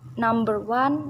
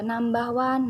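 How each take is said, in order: First: It is said in an American accent. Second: It is said in a British accent. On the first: "itu dalam Amerika, dalam aksen Amerika" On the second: "Tapi dalam aksen British itu berbeda lagi"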